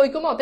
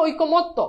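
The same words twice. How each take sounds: First: "ঐক্যমত" ending on a bare t, oi-ko-mot; ভুল উচ্চারণ. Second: "ঐক্যমত্ত" with doubled t and final o, oi-ko-mot-to; শুদ্ধ উচ্চারণ. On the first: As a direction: clip off the final vowel of "ঐক্যমত". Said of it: "অনেকে বলো ঐক্যমত". ("ঐক্যমত" শেষে শুধু ত্, ও-ধ্বনি ছাড়া) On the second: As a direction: end "ঐক্যমত্ত" on a clear to. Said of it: "এটার উচ্চারণ হচ্ছে". ("ঐক্যমত্ত" শেষে জোড়া ত আর ও-ধ্বনি) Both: Shown as a demonstration.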